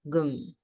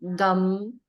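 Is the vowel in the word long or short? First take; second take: short; long. First: The vowel is kept short. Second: The vowel is drawn out long. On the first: The speaker calls it right. "It's just gum" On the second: The speaker calls it wrong. "So it's not really uh, gum. Uh, it's not elongated"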